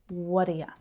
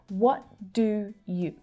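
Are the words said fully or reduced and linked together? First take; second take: reduced; fully. First: The vowels reduce and the words link together. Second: Each word is said fully and separately.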